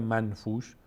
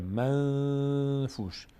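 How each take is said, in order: First: Said in the usual way. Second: منفوش with the ن held as a long nasal hum; nasal held noon. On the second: Shown as a demonstration. Teacher demonstrating the hidden noon, ن held long in the nose. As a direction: slowly hum through the ن of منفوش before the ف. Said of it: "صدا تو بینی داره میاد".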